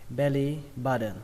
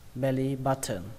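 First: The t sound in button sounds like d. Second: The t sound in button is clearly pronounced. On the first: "âm T ở đây các bạn có thể đọc thành âm D" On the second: "các bạn vẫn cứ thờ nó ra"

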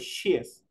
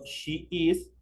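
First: It is said as one single syllable. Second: It is said as two separate syllables. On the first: "En la short form digo she is" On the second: "digo en la full form digo she is"

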